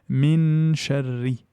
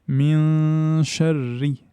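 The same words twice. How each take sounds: First: The n is fully articulated with the tongue. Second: The n is hidden, leaving only nasal sound. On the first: The speaker calls it wrong. "Je ne dis pas min sharri" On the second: The speaker calls it right. "Je laisse le son nasal, mais j'élimine le point d'articulation"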